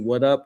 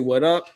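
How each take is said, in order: First: It sounds like a challenge to fight. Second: It sounds like a friendly greeting.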